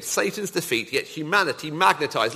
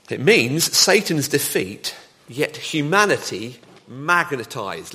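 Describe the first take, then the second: First: Said in the usual way. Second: Slow, each word weighted, "Satan's" and "humanity" stressed; slow emphatic. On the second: Shown as a demonstration. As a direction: spell it out slowly for the hall. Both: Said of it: "let me say that again".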